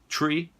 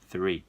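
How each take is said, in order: First: The word starts with a T sound. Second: The word starts with a TH sound. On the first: The speaker calls it wrong. "Às vezes sai uma árvore" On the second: The speaker calls it right. "E não é nenhum desses, e sim three"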